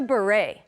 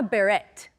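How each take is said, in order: First: The final T is not pronounced. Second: The final T is clearly pronounced. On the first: The speaker calls it right. "The T is silent. It's a beret" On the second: The speaker calls it wrong. "It's not a beret"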